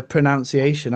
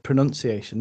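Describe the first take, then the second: First: "pronunciation" with "nown" in the middle; imitated pronunciation. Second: "pronunciation" with "nun" in the middle; own pronunciation. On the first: Quoting the other speaker's accent, "pronunciation" with an "ow" sound. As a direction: say "pronunciation" as "pro-nown-ciation". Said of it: "like he said". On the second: Shown as a demonstration. Giving their own accent's version, "pronunciation" with an "uh" sound. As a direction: say "pronunciation" as "pro-nun-ciation". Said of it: "I would have said".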